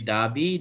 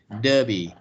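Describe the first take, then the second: First: It is said with a British accent. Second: It is said with an American accent. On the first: "the British will say" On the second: "the American will say"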